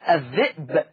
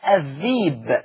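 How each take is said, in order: First: It has a glottal stop in the middle. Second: It has a long ee vowel in the middle.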